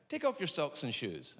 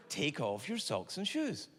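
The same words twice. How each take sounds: First: Said in the usual way. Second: Slow, spaced-out doctor's instruction; deliberate repeat. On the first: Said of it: "And he went". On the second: Retold or imitated. Doctor repeating himself to puzzled patient, slow and deliberate. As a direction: stretch it out for a baffled patient.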